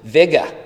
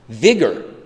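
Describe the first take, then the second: First: The word ends in an open vowel without r. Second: The word ends with a clear r sound.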